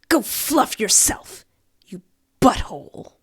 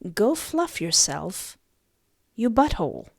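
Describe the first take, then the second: First: It is said imitating the woman's manner. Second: It is said in the speaker's plain voice.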